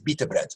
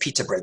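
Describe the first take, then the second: First: The first word starts with a B sound. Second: The first word starts with a P sound. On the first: "Arabs don't have a P sound" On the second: "they don't say pita bread"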